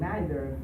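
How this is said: It is said with a British English pronunciation. "for the British English"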